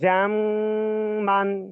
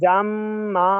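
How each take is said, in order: First: The word ends with a short n sound. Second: The word ends with a drawn-out vowel. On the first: The recitation continues without stopping. "ওয়াকফ ছাড়া বলেন।" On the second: The recitation stops at this word. "ওয়াকফ করলে টান হবে।"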